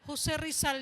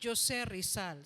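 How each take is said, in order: First: The J is said like English h. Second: The J is said like English j. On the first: The speaker calls it right. "hindi. Jose Rizal yon" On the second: The speaker calls it wrong. "ang basa si Jose Rizal"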